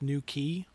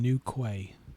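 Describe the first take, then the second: First: The second word is said like 'key'. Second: The second word is said like 'kway'. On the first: The speaker calls it right. "it's pronounced New Key" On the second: The speaker calls it wrong. "I'm going to read that out as New Quay because it'll annoy people"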